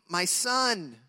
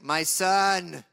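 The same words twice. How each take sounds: First: It is said in a plain reading voice. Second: It is said in a stern dad voice.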